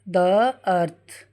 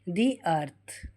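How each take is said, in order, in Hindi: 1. शब्द 'the' में छोटी 'uh' स्वर ध्वनि बोली जाती है। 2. शब्द 'the' में लंबी 'ee' स्वर ध्वनि बोली जाती है। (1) "अब द नहीं बोलेंगे" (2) "अब बोलेंगे दी"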